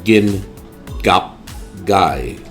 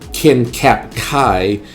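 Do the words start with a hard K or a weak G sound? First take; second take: weak G; hard K. First: The words start with a weak G sound. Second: The words start with a hard K sound. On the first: The speaker calls it right. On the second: The speaker calls it wrong.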